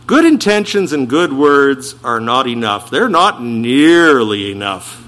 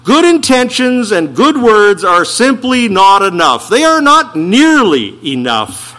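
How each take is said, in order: First: Said in the usual way. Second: "Good" and "not" hit loud and high; emphatic preaching. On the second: Acted. Preacher insists to the congregation, loud and emphatic.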